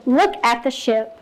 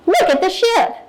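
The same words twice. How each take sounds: First: Slow, even, unhurried model line; paced calm reading. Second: High, bright burst of excitement on each word; exclamation reading. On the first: Teacher modeling echo reading for her class, slow and even. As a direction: read it slowly so seven-year-olds can keep up. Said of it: "So I would just go". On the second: Teacher modeling for young readers, excitedly exclaiming. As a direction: read it like it ends in an exclamation point. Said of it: "if this had an exclamation point and I read it as". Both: Shown as a demonstration.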